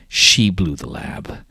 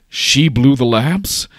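First: Slow, louder grave statement; grave accusation. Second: Slow, high, loud incredulous question; flabbergasted. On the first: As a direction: lean hard on SHE, slowly, then fall. Villain reports the lab's destruction. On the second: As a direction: burst out in drawn-out disbelief, rising at the end. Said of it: "flabbergasted, like, unsure what's going on". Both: Acted.

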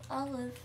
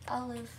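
Both takes have the same delivery.

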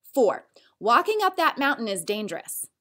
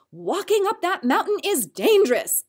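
First: Said in the usual way. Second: Higher, louder warning, "dangerous" stressed; mother warning a child, emphatic; strong warning. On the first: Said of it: "If it is said as a statement". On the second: Shown as a demonstration. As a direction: warn the kid with feeling. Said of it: "She may warn him with strong feeling".

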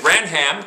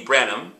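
First: "Branham" with a full "ham" as written; as spelt. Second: "Branham" said as "Branum", H dropped; silent H. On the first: Teacher showing how the name looks, "Branham" read literally. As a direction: sound out both parts, "Bran" and "ham", in "Branham". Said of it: "'cause that's how it looks". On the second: Teacher giving the real name, "Branham" without its H. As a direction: reduce the end of "Branham" to a light "um". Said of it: "There's no H". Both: Shown as a demonstration.

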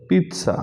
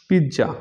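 First: পিৎজা as "PEET-sa"; crisp ts in the middle of পিৎজা, first syllable high; correct pronunciation. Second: পিৎজা with a j sound, "pid-ja"; common mispronunciation. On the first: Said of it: "উচ্চারণ হবে". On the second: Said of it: "এটা সঠিক উচ্চারণ". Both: Shown as a demonstration.

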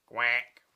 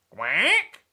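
First: Low, short quack; low-pitched duck reply; duck answering. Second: Loud questioning quack; duck's query, rising at the end; duck asking. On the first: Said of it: "The duck answered". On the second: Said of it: "asked the duck". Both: Acted.

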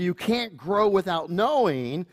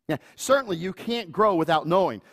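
First: Knowing drawn out and rising; stress on knowing. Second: Certainly leaned on, falling; stress on certainly. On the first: Preacher stressing knowing, slow and rising. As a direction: lean into knowing, slowly. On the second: Preacher restating it, certainly leaned on. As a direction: punch certainly. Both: Shown as a demonstration.

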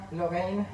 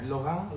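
First: Lorraine said the English way, lo-RAYN; English pronunciation. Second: Lorraine said the French way, soft r, lo-REN; French pronunciation. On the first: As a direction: say Lorraine in English, stress on the last syllable, lo-RAYN. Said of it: "Lorraine in English". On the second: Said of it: "How do you say it in French?". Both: Shown as a demonstration.

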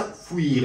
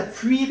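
First: "فویر" as foo-eer, falling; fouir with oo. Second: "فویر" as f-ü-eer, pitched higher; fuir with ü glide. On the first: Teacher contrasting two verbs by sound, "فویر" with oo, falling. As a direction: say "فویر" with a back oo before eer. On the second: Teacher contrasting two verbs by sound, "فویر" with ü, raised pitch. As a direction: say "فویر" with a tight French u gliding into ee. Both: Shown as a demonstration. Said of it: "فقط در تلفظ فرق داره".

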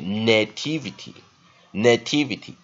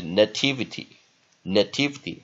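First: "nativity" slowly as NAY-TIV-ity; double stress, long vowel. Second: "nativity" as nuh-TIV-ity; weak first vowel. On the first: Teacher showing the long-vowel option, "nativity" with two stresses. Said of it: "如果你念长母音哈". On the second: Teacher showing the weak-sound option, "nativity" with a reduced first vowel. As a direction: leave "na" in "nativity" unstressed, stress only TIV. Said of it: "那你弱音念法就". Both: Shown as a demonstration.

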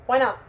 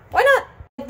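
First: Said in the usual way. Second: "Why not" squeaked up very high; high-pitched repeat. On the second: Real, not acted. Vlogger talking herself into cutting, high-pitched squeak.

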